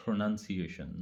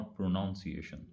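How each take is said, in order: First: Second syllable NUN in "pronunciation"; correct pronunciation. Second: "pronunciation" misspoken as pro-NOUN-ciation; wrong pronunciation. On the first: Teacher giving listeners the right word, correct pronunciation. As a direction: say "pronunciation" with a short "nun", not "noun". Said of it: "the word is". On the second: Teacher showing listeners the common mistake, mispronounced. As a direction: put "noun" inside "pronunciation". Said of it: "not pronunciation". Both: Shown as a demonstration.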